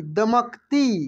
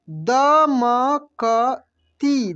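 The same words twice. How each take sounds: First: A bit slow. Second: दमकती drawn out very slowly, each syllable separate. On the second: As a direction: sound out दमकती slowly for the class. (दमकती को अक्षर अक्षर धीरे बोलिए) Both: Shown as a demonstration. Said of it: "कैसे पढ़ेंगे?".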